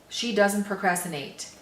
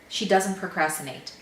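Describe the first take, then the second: No difference in how they are said.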